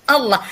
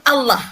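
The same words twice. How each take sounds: Both takes have the same delivery.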